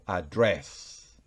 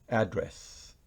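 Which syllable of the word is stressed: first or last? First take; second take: last; first. First: The stress is on the last syllable. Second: The stress is on the first syllable. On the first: It is the verb meaning to speak to someone. "Y si es verbo, ... va en la última sílaba" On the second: It is the noun meaning a place where someone lives. "Si fuera el sustantivo dirección sería address"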